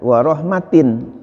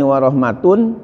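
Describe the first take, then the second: First: The word ends with the vowel sound -in. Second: The word ends with the vowel sound -un. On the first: It is joined grammatically to the word khair. "dan boleh juga dibaca dengan jar" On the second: It is joined grammatically to the word uzunun. "boleh dibaca dengan rafa"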